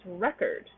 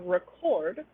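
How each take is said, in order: First: The stress is on the first syllable. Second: The stress is on the second syllable. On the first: It is a noun. "versus record" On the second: It is a verb, an action. "which is a verb, an action"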